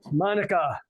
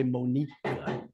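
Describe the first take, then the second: First: Said in the usual way. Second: Monica with the stress pushed onto the wrong syllable, moh-NEE-ca, slowed; deliberately mangle Monica by stressing the middle syllable, drawn out. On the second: Shown as a demonstration. Astrologer jokingly mispronounces the client's name, stress on the middle syllable Monica. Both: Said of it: "put the emphasis on the wrong syllable".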